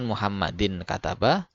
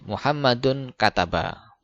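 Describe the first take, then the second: First: The first word ends in the sound 'in'. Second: The first word ends in the sound 'un'. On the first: The speaker calls it wrong. "bukan Muhammadin kataba" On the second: The speaker calls it right. "jadi Muhammadun kataba"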